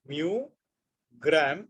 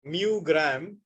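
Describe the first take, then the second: First: MU and GRAM set apart by a long pause; word by word. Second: Said in the usual way. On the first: Shown as a demonstration. Teacher repeats the unit for students to catch, word by word. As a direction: dictate mu, wait, then gram.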